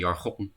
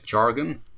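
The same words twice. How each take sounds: First: The word is pronounced the Dutch way. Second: The word is pronounced the English way. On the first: "We have this word in Dutch too, but we say jargon" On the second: "Is that a proper pronunciation in English?"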